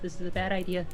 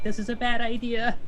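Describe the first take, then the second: First: It is said quietly, under the breath. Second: It is said loudly, out loud. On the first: The character is muttering it to herself. "initially under her breath quietly" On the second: The character fully realizes what she is doing. "louder and louder and just out loud"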